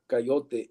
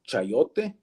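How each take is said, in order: First: The word begins with a hard k sound. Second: The word begins with a ch sound. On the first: The speaker calls it wrong. "it's not coyote" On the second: The speaker calls it right. "it's oh ch chayote"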